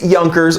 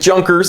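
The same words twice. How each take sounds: First: The name is said with a German pronunciation. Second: The name is said with an American pronunciation. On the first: The speaker calls it right. "but it is Junkers" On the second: The speaker calls it wrong. "You might pronounce it Junkers if you're a stupid American like me"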